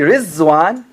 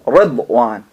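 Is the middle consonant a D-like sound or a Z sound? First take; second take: Z sound; D-like sound. First: The middle consonant is a Z sound. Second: The middle consonant is a D-like sound. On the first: The speaker calls it wrong. "It's not Riz" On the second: The speaker calls it right.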